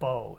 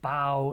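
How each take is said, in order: First: The vowel sounds like the one in go. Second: The vowel sounds like the one in cow. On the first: The word means the weapon that shoots arrows. The speaker calls it right. "instead of bow" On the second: The word was read as the act of bending forward. The speaker calls it wrong. "it said like bow"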